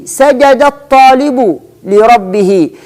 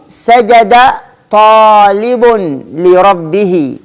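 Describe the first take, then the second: First: سجد الطالب لربه slowly, as "sajadat-taalibu li-rabbihi"; slow dictation, سجد الطالب run together with doubled ta; with al, linked. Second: سجد طالب لربه slowly, a single ta opening طالب; slow word-by-word demo, سجد, then plain-ta طالب, then لربه; without al. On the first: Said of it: "للفرق ما بين النطق في وجود ال". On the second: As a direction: keep سجد and طالب apart, no doubled ta. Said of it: "ليست موجودة ال". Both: Shown as a demonstration.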